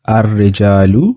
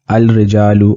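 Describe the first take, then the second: First: The l blends into a doubled r sound. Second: The l of the article is clearly sounded. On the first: The speaker calls it right. "I am pronouncing this ar-rijalu" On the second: The speaker calls it wrong. "I'm not pronouncing it al-rijalu"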